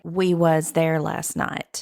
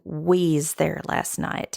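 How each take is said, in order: First: The words 'we was' are said in full. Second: The words 'we was' are shortened to 'we's'.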